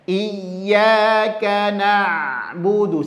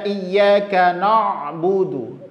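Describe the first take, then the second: First: The syllable na is said thin, lips smiling. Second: The syllable na is said thick and heavy. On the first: The speaker calls it right. "Maka senyumkan saja" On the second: The speaker calls it wrong. "Na jadi na dengan a itu tebal"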